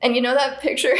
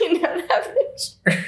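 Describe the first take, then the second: First: Real giggle creeping into the words; starting to laugh. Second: High, slow words squeezed through real laughter; laughing too hard. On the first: Friend starting a funny story, starting to laugh. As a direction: begin the story as laughter takes over. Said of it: "I would start laughing too hard". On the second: Storyteller retrying her line, laughing too hard. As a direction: struggle to get it out while cracking up. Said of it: "Already doing it". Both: Real, not acted.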